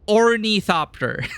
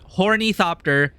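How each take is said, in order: First: The word begins without an H sound. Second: The word begins with an H sound. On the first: The speaker calls it right. "there's no H" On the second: The speaker calls it wrong. "It's not hornythopter"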